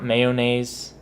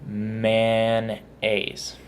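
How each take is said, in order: First: "mayonnaise" with all three syllables, MAY-oh-naze; "mayonnaise" as MAY-O-NAZE, every syllable kept. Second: "Mayonnaise" drawn out as two syllables, MAN-AZE; "Mayonnaise" squeezed to MAN-AYZ, no "oh". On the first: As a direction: sound out "mayonnaise" slowly with the "oh" in the middle. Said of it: "Not mayonnaise". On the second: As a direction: say "Mayonnaise" slowly as MAN-naze, middle syllable dropped. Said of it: "Just two syllables". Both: Shown as a demonstration.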